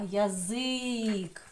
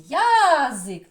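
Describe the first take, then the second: First: ЯЗИК with long-held И in ЗИК; slow ЯЗИК, leaning on ЗИК; stress on second syllable. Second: ЯЗИК with loud, high, stretched Я; stress on first syllable. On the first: Teacher shows the correct stress, ЯЗИК stretched on ЗИК. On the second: Teacher shows the wrong stress, ЯЗИК leaning on Я. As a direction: hit Я hard in ЯЗИК, dropping on ЗИК. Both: Shown as a demonstration. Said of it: "На перший звук А чи на И?".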